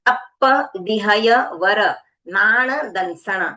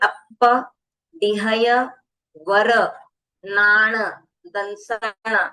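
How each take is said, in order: First: The phrase is said in one unbroken run. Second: The phrase is broken into chunks with pauses. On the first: The speaker calls it wrong. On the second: The speaker calls it right.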